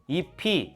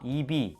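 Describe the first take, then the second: First: The final consonant links over as an aspirated p. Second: The final consonant links over as a plain b.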